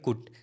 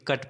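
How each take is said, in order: First: The vowel is a short 'oo' sound. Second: The vowel is a short 'uh' sound. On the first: The speaker calls it wrong. "C U T को कुट पढ़ते हैं" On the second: The speaker calls it right. "लेकिन कट पढ़ते हैं"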